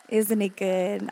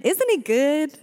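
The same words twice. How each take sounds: First: Slower, settled, heartfelt; gentle repeat. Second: Higher, louder call-out; excited praise. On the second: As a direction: shout it up to the crowd. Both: Real, not acted. Praise after prayer.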